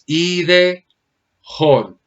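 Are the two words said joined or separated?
separated. The two words are said separately. The speaker calls it right. "aquí simplemente es ide, jon"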